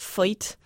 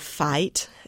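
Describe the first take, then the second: First: The vowel sounds closer to oy. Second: The vowel is a plain eye sound.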